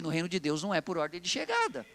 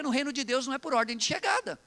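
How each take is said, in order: First: Low, measured restatement lifting at "chegada"; deliberate repetition. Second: Said in the usual way. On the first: Real, not acted. Preacher repeats the point to the congregation, deliberate and lower. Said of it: "eu vou repetir".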